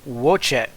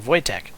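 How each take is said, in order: First: The name begins with an English W sound. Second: The name begins with a V sound. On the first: The speaker calls it wrong. "it's not Wojtek" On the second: The speaker calls it right. "a W is basically a V"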